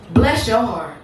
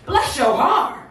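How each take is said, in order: First: Midwest mama. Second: Lifted Southern "bless your heart"; down-south mama. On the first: Midwest mama politely cursing someone, restrained Midwest delivery. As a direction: say it evenly, like a Midwest mother. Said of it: "So Midwest, she said". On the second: Southern mama sweetly cursing someone, lifted down-south delivery. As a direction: call it out like a Southern mother. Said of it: "So down south, she said". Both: Acted.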